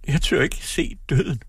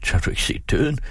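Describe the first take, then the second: First: Acted sob, high and slow; slow, high-pitched tearful confession; sobbing. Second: Higher pitch, rising in dismay; startled question. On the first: Daughter dreads seeing death, sobbing. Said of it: "hulkede hun". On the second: Father strokes daughter's hair, startled question. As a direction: ask it in mild alarm. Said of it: "strøg hende forskrækket". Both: A narrator's reading.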